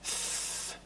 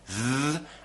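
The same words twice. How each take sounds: First: The th sound is voiceless. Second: The th sound is voiced. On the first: "the unvoiced T H" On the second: "the voiced T H"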